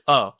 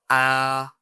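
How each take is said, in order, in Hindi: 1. स्वर सामान्य मुँह खोलकर बोला गया है। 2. स्वर बहुत अधिक चौड़ा मुँह खोलकर बोला गया है। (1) "this is a normal way of speaking a" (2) "so that is not the right pronunciation"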